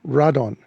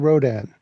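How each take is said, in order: First: The stress is on the first syllable. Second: The stress is on the second syllable. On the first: This is how Japanese speakers say the name. "The Japanese say Radon. Uh, the emphasis is on the first syllable" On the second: This is how English speakers say the name. "we say Rodan"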